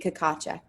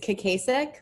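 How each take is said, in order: First: The name is said the Czech way. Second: The name is said the American way.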